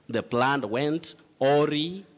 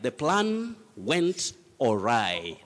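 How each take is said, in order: First: The last syllable ends with an 'ee' sound. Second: The last syllable ends with an 'eye' sound. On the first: The speaker calls it wrong. "Many people say aurai, auri" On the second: The speaker calls it right. "You say orai"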